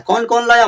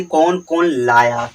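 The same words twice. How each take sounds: First: कौन कौन लाया asked high and bright; high asking voice. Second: कौन कौन लाया drawn out slowly and low; teacher spells out कौन कौन लाया for students to memorise; slow recital. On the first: Pretend. Teacher acts the one asking who brought it, high-pitched. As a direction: pitch the question up like someone calling out. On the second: Shown as a demonstration. Teacher reciting the mnemonic for students, slow and low. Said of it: "बस इतना आप याद कर ले".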